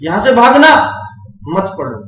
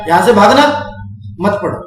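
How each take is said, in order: First: There is a pause right after 'bhaagna'. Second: There is a pause right after 'mat'. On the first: Run away from here, do not study. The speaker calls it wrong. "Comma यहां बोला था लेकिन उसने यहां लगा दिया अपनी मर्जी से" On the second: Do not run away from here, study. The speaker calls it right. "भाई तुमने ये बोला था"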